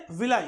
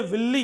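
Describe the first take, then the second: First: Villi said as "vil-lie", ending in "-lie"; correct pronunciation. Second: विल्ली said as "vil-lee", the wrong way; wrong pronunciation. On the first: Biology teacher giving students the right way: villi as "vil-lie". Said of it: "क्या बोलेंगे?". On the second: Biology teacher showing students the wrong way: विल्ली as "vil-lee". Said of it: "नहीं बोलेंगे विल्ली". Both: Shown as a demonstration.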